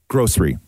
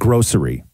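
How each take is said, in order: First: The word is said with two syllables. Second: The word is said with three syllables. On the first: "I say this word as two syllables" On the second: "Not grocery"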